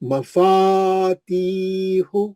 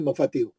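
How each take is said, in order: First: The vowel after 'f' is held two counts. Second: The vowel after 'f' is cut short. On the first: The speaker calls it right. "जहाँ-जहाँ मध्य इसलिए दो हरकत करना है।" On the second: The speaker calls it wrong. "नहीं पढ़ना है"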